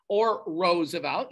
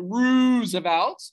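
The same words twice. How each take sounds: First: "Roosevelt" with first syllable like "rose"; alternative pronunciation. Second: "Roosevelt" with a long, drawn-out "Roo"; Dutch-accent pronunciation. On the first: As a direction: say "Roosevelt" slowly as "ROHZ-uh-velt". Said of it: "either one I will accept". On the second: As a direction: stretch "Roosevelt" slowly, first syllable rhyming with "zoo". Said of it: "say it with the Dutch accent". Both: Shown as a demonstration.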